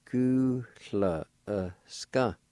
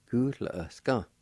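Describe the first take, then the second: First: "Gu la e ska" said at half speed; slow model. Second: Said in the usual way. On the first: Shown as a demonstration. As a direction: say "Gu la e ska" slowly. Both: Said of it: "Pronounce like this".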